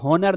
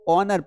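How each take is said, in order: First: The word begins with a clear h sound. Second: The word begins directly with a vowel sound. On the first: The speaker calls it wrong. "हॉनर नहीं पढ़ेंगे" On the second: The speaker calls it right. "ऑनर को ऑनर पढ़ेंगे"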